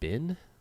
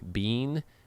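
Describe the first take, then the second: First: The vowel sounds like the one in sit. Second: The vowel sounds like the one in see. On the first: "With the vowel in sit?" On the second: "With the vowel in C"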